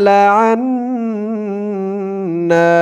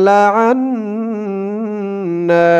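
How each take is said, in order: Both takes have the same delivery.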